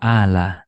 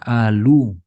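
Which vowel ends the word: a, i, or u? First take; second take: a; u. First: The word ends with an a vowel. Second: The word ends with a u vowel. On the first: "nggak dibaca ala" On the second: "nggak dibaca alu"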